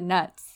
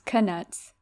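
First: The K at the start is silent. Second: The K at the start is pronounced. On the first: "Like a silent K" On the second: "And then Jim Dale says"

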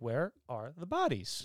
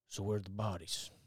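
First: It is said in a silly, playful way. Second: It is said in a serious, dramatic way.

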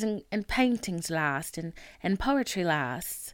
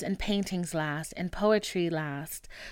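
First: It is said in a put-on Irish accent. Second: It is said in the speaker's plain accent.

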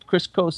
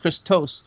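First: The name is said without a clear T sound. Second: The name is said with a clear T sound. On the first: The speaker calls it wrong. "It's not Kristos" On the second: The speaker calls it right. "It's Kristos with a T"

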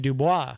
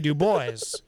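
First: The final s is silent. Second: The final s is pronounced. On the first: This is how it ought to be said. The speaker calls it right. "but it should be Dubois" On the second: This is how the locals say it. The speaker calls it wrong. "They say Dubois"

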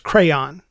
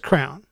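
First: It is said as two syllables. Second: It is said as one syllable, like crown. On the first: The speaker calls it right. "It's a two-syllable word" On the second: The speaker calls it wrong. "she says it just like the word crown"

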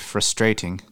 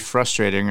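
First: It mimics another accent with different vowel emphasis. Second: It is said in the speaker's usual accent.

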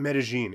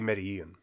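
First: The double L is sounded like sh. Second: The double L is not sounded like sh. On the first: This follows the local Colombian pronunciation. "you're saying Medellin" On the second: This follows the pronunciation heard on a TV show. "on Entourage, they say Medellin"

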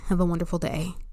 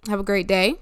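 First: It sounds mean and curt. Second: It sounds warm and sincere.

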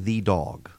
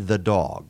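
First: The word 'the' is said in careful reading form. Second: The word 'the' is said in relaxed conversational form. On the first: The person is reading from a script. The speaker calls it wrong. "They don't say "the dog,"" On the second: The person is speaking freely, not reading. The speaker calls it right. "at a casual pace ... they say "the dog.""

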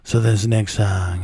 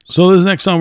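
First: The voice is put on to sound sexy. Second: The voice is plain and ordinary.

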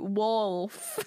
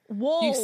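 First: The L sound is clearly pronounced. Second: The L sound is weak, with a Southern sound. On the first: "Really hard to say it like you" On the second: "Apparently, I say wolf wrong"

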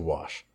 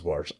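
First: The word is said without an r sound. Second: The word is said with an r sound. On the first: This is the speaker's own usual way. The speaker calls it right. "I say" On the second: This is the regional way a parent says it. The speaker calls it wrong. "My mom says"

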